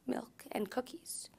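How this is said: It is said in a timid, shy tone.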